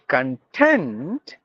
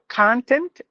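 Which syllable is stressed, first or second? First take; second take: second; first. First: The stress is on the second syllable. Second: The stress is on the first syllable. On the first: It means satisfied or comfortable. "giving the stress for the second syllable" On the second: It is a noun meaning stuff or material. "If you give the stress in the beginning, it's noun"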